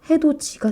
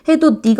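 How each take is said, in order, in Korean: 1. 두 번째 음절은 ㅈ 소리로 시작합니다. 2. 두 번째 음절은 ㄷ 소리로 시작합니다. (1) "해돋이가 됩니다" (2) "해돋이가 아니라"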